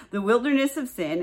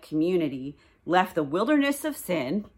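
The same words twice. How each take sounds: First: Amused repeat. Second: Said in the usual way. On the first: Shown as a demonstration. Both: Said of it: "whatever that was".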